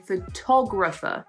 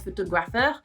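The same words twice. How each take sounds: First: The stress falls on the second syllable. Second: The stress falls away from the second syllable. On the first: The speaker calls it right. "we have a photographer" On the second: The speaker calls it wrong. "we don't have a photographer"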